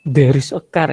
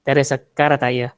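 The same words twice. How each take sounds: First: "There is a car" with a medok Javanese lilt; Javanese accent English. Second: "there is a car" in a Madurese accent, ending with a tacked-on "tayo"; Madurese accent English. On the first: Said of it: "itu orang Jawa itu". ("There is a car" dengan logat Jawa medok) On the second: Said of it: "Orang Madura". ("there is a car, tayo" dengan logat Madura) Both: Shown as a demonstration.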